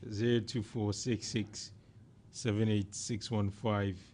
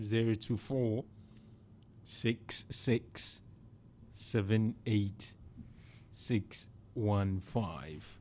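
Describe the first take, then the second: First: The number is read at normal speed. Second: The number is read out slowly.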